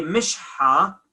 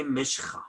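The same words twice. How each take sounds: First: Mishha with a breathed h after sh; classical h. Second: Mishcha with a throaty kh; spoken kh. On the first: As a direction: say mishha without any rasp. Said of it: "It should be mishha". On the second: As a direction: say mishcha with ch as in Bach. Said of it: "But we say mishcha". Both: Shown as a demonstration.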